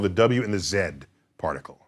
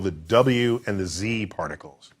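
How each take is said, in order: First: The letter Z is said the British way, zed. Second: The letter Z is said the American way, zee.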